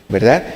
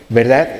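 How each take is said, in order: No difference in how they are said.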